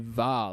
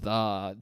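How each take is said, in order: First: The word begins with a v sound. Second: The word begins with a th sound. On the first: The speaker calls it wrong. "I would always say "va," like as in V A" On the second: The speaker calls it right. "and not "the" T H E"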